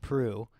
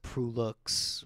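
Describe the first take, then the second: First: The name ends without any final x sound. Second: The name ends with a pronounced x sound. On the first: The speaker calls it right. "my last name is pronounced Prue" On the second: The speaker calls it wrong. "a lot of people pronounce it Prulux"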